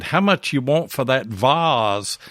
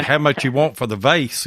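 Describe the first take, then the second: First: Put-on slow northern Yankee accent, "vase" said as "vahz"; a Yankee visitor asks a Southern seller the price, "vase" as "vahz". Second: "vase" said "vayce", rhyming with "face"; a Southern way of asking the price, "vase" as "vayce"; Southern pronunciation. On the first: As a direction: imitate a Yankee asking a price, "vase" rhyming with "Oz". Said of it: "with that Yankee accent". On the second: Shown as a demonstration. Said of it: "because he didn't say".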